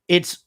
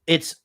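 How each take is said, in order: Both takes have the same delivery.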